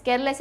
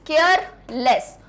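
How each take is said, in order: First: Said in the usual way. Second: careless slowly split as care, लेस; syllable by syllable. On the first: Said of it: "यानी क्या होता है". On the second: Shown as a demonstration. Teacher breaking the last word up, syllable by syllable. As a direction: pause between care and लेस. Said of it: "words को तोड़ना आ रहा है".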